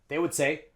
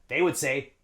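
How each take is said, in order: No difference in how they are said.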